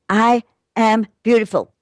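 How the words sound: The voice falls at the end, like a statement.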